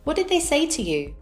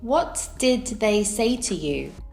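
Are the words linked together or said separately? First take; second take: linked; separate. First: The words are linked and reduced together. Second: Each word is said separately and fully. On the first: "with connected speech" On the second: "without connected speech"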